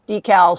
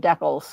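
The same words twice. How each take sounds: First: The word is said the American way. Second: The word is said the Canadian way.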